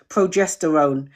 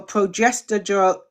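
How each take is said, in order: First: "progesterone" carefully sounded out, lower; slow, careful pronunciation. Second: "progesterone" with its last syllables muddled; stumbled pronunciation. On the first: Correcting own stumble for viewers, slow careful "progesterone". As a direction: say "progesterone" slowly, syllable by syllable. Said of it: "I have to say it slowly". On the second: Explaining hormones to viewers, stumbling on "progesterone". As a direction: trip over the end of "progesterone". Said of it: "I see I have to say it slowly". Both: Real, not acted.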